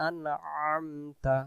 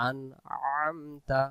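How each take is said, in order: No difference in how they are said.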